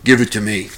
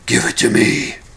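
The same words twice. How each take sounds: First: It is said in a normal voice. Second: It is said in a gruff Batman voice.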